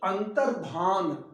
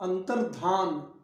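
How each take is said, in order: The two takes are said the same way.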